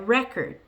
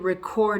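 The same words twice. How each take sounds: First: The stress is on the first syllable. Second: The stress is on the second syllable. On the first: It is used as a noun. "I want to buy a record. You hear the difference?" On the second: It is used as a verb. "I need to record a video. ... You hear the difference?"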